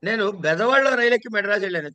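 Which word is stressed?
బెదవాడలో. The word 'Bezawadalo' is stressed. The train was boarded in this town, not another. "బెదవాడ stress"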